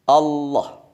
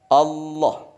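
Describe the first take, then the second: No difference in how they are said.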